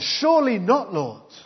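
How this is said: It is said in a stroppy, indignant manner.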